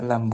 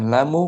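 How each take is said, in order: First: The word ends on the bare consonant m. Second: The word ends with an added u vowel. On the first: The speaker calls it right. "lam dibaca lam" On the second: The speaker calls it wrong. "bukan lamu"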